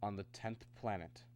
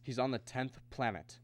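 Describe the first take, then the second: First: Understated and hushed; reluctant reveal. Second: TENTH PLANET restated firmly at normal volume; "tenth planet" said out clearly, insistently; firm repetition. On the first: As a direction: say it softly, reluctantly. Reluctant revelation, said low. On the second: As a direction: repeat "tenth planet" plainly for a disbelieving listener. Repeats it after disbelieving "What?. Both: Acted.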